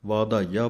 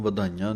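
First: ਵਾਧਾਈਆ with the long first vowel vaa-dhaa-ee-aa; correct pronunciation. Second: ਵਧਾਈਆਂ with a short first vowel, vadhaaeeaan; wrong pronunciation. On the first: Teacher showing the correct reading: ਵਾਧਾਈਆ with a long vaa. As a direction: say ਵਾਧਾਈਆ keeping the kanna on vaava, as vaadhaaeeaa. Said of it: "ਵਾਧਾਈਆ ਪਾਠ ਹੈ". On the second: Teacher showing the mistake to avoid: ਵਧਾਈਆਂ with a short va. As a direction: say ਵਧਾਈਆਂ dropping the long vaa, the common mistake. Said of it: "ਇਹਨੂੰ ਵਧਾਈਆਂ ਨਹੀਂ ਕਹਿ ਦੇਣਾ". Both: Shown as a demonstration.

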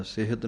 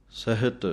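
First: ਸਿਹਤ with ਇ on ਸ; wrong reading demo. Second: ਸਹਿਤ with the ਇ on ਹ; correct reading. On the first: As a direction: show the mistake ਸਿਹਤ, sihat. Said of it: "ਸਿਹਤ ਨਹੀਂ ਕਹਿਣਾ". (ਗ਼ਲਤ ਉਚਾਰਣ ਸਿਹਤ) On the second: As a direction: say ਸਹਿਤ as sahit. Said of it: "ਹਾਹੇ ਸਿਹਾਰੀ ਲਾਉਣੀ ਹੈ". (ਸਹਿਤ, ਹਾਹੇ ਸਿਹਾਰੀ ਨਾਲ) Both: Shown as a demonstration.

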